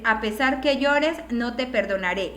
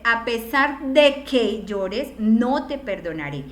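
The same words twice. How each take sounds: First: Said in the usual way. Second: Slow, with de in A pesar de que lifted and stretched; slowly, with de rising and held; stress on de. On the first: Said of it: "ambas están, eh, pues, mal". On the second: Shown as a demonstration. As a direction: lean on de to show the correct connector. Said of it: "La opción correcta siempre debe ser".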